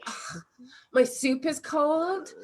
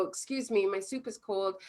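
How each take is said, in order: First: Slow, higher huffy complaint; mock outraged diner; hammed-up fussy customer; disgusted complaint. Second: Soft, calm and polite; matter-of-fact request; gentle neutral customer. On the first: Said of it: "you're like". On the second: Shown as a demonstration. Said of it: "observing the facts".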